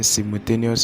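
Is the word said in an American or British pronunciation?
British. The word is said with a British pronunciation. "is the British pronunciation"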